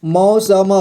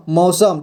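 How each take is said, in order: First: मौसम sounded out in parts, मौ, स, म; syllable by syllable. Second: मौसम joined up as one word, final म closed; blended word. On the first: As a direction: break मौसम into its separate letter sounds. (मौसम को अक्षर-अक्षर तोड़कर, मौ-स-म) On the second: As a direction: say मौसम whole, with no breaks between letters. (मौसम को मिलाकर एक शब्द में) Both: Shown as a demonstration. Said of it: "सभी को मिला करके हम क्या पढ़ेंगे".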